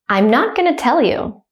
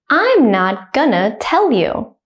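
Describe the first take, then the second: First: The sentence is said fast and naturally. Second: The sentence is said slowly and carefully. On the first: "at a native speaker speed second" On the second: "I will say it slowly first"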